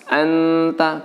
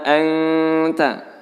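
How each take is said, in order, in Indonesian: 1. n diucapkan jelas dan tegas sepenuhnya. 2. n ditahan sebagai dengung sengau. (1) "tidak dibaca jelas anta" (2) "Jadi fima anta, seperti itu"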